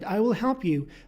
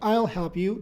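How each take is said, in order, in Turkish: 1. Will tam ve ayrı bir kelime olarak söylenir. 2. Will kısaltılır ve I'ya bitişik söylenir.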